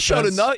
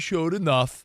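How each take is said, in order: First: It is said in an upbeat, approving tone. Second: It is said in a flat, dismissive tone. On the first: He did well enough to earn it. The speaker calls it right. "How about saying it positive?" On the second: He barely did enough. The speaker calls it wrong. "you're delivering it like"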